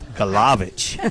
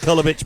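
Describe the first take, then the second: First: The name is said the northern regional way. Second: The name is said the standard way. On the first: "I want to do it like they do it up north" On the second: "Actually, it's Kulovich"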